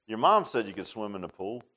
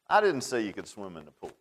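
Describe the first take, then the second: First: "mom" leaned on with a mocking rise; smart-aleck jab on the word "mom"; stress on mom. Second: "I" punched, the rest falling; childish claim, weight on "I"; stress on I. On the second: Retold or imitated. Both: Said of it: "that old smart aleck part of me".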